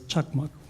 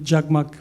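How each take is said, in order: First: The name begins with a ch sound. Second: The name begins with a j sound. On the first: This is the original Turkic form meaning lighting. "may be pronounced as chakmak" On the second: This is the Arabic rendering of the name. "there is not a sound ch, there is only j, jim"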